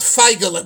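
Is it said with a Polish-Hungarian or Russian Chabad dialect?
Polish-Hungarian. It is said in a Polish-Hungarian Yiddish dialect.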